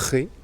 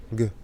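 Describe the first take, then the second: First: "G" as a throaty khe; guttural Spanish G. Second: "G" as a hard gue, as in go; hard French G. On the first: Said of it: "c'est le son R". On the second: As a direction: say "G" as a stopped hard g. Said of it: "Como en francés". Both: Shown as a demonstration.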